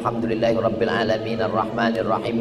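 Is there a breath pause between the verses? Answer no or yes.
no. Both verses run together in one breath. "bisa Fatihah satu nafas"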